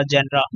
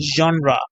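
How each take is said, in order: First: "जेनरा" with an open e, the common mistake; wrong pronunciation. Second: "जॉनरा" with a rounded o, the British way; correct pronunciation. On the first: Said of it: "तो ये गलत बोलते हैं". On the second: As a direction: say "जॉनरा" with a clear open o, falling at the end. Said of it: "क्या बोला मैंने?". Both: Shown as a demonstration.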